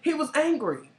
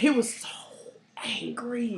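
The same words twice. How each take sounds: First: Higher-pitched, fully voiced "angry"; voiced emphasis. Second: Whispered with a pause before "angry"; emphatic whisper. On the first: Repeating to cohost that he was angry, high and emphatic. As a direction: say it out high, no whisper. Repeats it aloud after whisper. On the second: Telling cohost how angry he was, in a whisper. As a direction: whisper it, letting "angry" hang. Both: Real, not acted.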